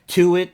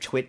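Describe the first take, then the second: First: The word is said with two syllables. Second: The word is said with one syllable. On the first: "into two syllables" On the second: "a one syllable word twit"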